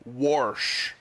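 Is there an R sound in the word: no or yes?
yes. It is said with an added R sound. "it is pronounced this way"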